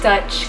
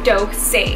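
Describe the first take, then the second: First: The name sounds like the word Dutch. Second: The name sounds like Dolce, not Dutch. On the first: The speaker calls it wrong. "I've been pronouncing it wrong this whole time. It's not Dutch Cosmetic" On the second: The speaker calls it right. "like it's Dolce"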